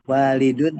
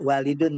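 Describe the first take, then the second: First: The first vowel is drawn out long. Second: The first vowel is short and clipped. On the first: The speaker calls it right. "tapi intonasi panjang" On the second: The speaker calls it wrong. "Tidak walidun ya"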